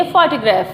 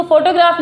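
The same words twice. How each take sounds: First: "फोटोग्राफ" as FAA-tuh-graf, open first vowel; "फोटोग्राफ" with short, weak middle vowel; corrected pronunciation. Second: "फोटोग्राफ" as foto-graaf, with full O vowels; "फोटोग्राफ" with round O and long final aa; common mispronunciation. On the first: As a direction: teach "फोटोग्राफ" with an English FOT-uh-graf sound. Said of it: "इसको बोलेंगे फोटोग्राफ". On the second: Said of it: "इसको फोटोग्राफ नहीं बोलेंगे". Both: Shown as a demonstration.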